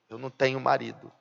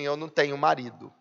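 First: It is said in a deflated, downcast way. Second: It is said in a plain, neutral way.

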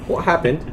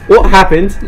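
First: The question is asked in a calm, composed way. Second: The question is asked in an upset, distraught way. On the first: "It's oddly composed for seeing your family slaughtered in front of you" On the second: "Try again"

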